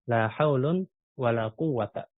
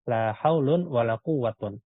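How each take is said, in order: First: The last word ends with a plain 'a' sound. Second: The last word ends with an 'un' sound. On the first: The second negation works as a generic negation. "dia bisa kita baca fathah" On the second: The second negation is treated as inactive. "kalau dibaca marfu"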